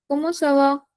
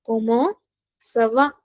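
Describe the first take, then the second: First: Said in the usual way. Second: "Comment", rising, pause, then "ça va"; separated teaching delivery of "Comment ça va"; word by word. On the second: Shown as a demonstration. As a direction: break "Comment ça va" in two for learners. Teacher dictates phrase in pieces.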